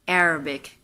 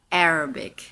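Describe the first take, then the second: Both takes have the same delivery.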